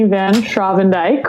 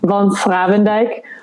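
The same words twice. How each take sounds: First: The name is said the American way. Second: The name is said the Dutch way.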